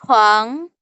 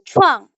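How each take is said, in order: First: The syllable is said in the second, rising tone. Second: The syllable is said in the fourth tone. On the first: "nada kedua itu dia naik ke atas" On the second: "Nada keempat itu chuang"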